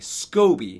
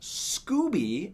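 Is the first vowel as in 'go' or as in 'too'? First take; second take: go; too. First: The first vowel sounds like 'go'. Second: The first vowel sounds like 'too'. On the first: The speaker calls it right. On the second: The speaker calls it wrong. "not Scooby, as I've heard some people pronounce it"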